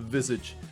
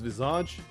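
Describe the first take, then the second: First: The word is given an English pronunciation. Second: The word is given a French pronunciation. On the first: "the English version, you might pronounce it visage" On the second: "In French, where the word is from, is visage"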